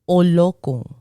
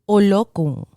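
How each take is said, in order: Both takes have the same delivery.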